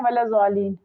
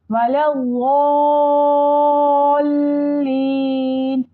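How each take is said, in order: First: वलद्दाल्लीन with a plain z, said fast and short; wrong pronunciation. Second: वलद्दाल्लीन with a heavy ض and a very long drawn ल्ली; correct tajweed. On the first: Teacher showing the big mistake, quick light z. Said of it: "वलद्दाल्लीन गलत है". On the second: Teacher giving the correct ending, long heavy chant. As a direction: stretch वलद्दाल्लीन slowly with a thick dhad. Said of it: "बहुत बड़ी गलती है". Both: Shown as a demonstration.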